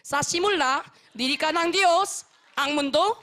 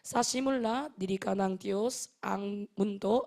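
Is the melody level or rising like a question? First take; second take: rising; level. First: The melody rises like a question on phrases. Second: The melody runs evenly along without rising. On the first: The speaker calls it wrong. "억양이 올라가니까 약간 물음표가 올라가듯이" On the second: The speaker calls it right. "이렇게 그냥 쭉 가야 하는 문장들"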